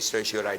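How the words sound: It is pronounced the American English way. The speaker calls it right. "pronounce it in the way that the Americans do"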